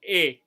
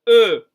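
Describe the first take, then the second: First: The vowel is an unrounded, Spanish-like e. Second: The vowel is rounded, with the lips shaped for o. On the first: The speaker calls it wrong. "Pas E" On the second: The speaker calls it right. "La bouche pour dire O, mais vous dites un E"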